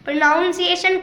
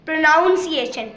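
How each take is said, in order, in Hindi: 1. दूसरा अक्षर 'nown' जैसा सुनाई देता है। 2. दूसरा अक्षर 'nown' जैसा सुनाई देता है।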